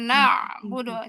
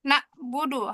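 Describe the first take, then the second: First: The middle consonant is a deep throaty ain sound. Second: The middle consonant sounds like a plain glottal stop. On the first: The speaker calls it right. "harusnya na'budu" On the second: The speaker calls it wrong. "ain itu dimiripin sama hamzah"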